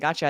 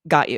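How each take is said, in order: First: The two words blend into one reduced word. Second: The two words are said fully and separately. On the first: I understand. The speaker calls it wrong. "we're saying it quickly and we're shortening it to gotcha" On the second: I will support you. The speaker calls it right. "I'd say, "Got you"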